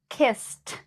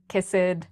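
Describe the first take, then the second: First: The ending is a strong t sound. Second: The ending is not a plain t sound. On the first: The speaker calls it right. "I just made that strong t sound" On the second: The speaker calls it wrong. "notice I did not say"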